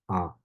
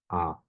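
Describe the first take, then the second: Both takes have the same delivery.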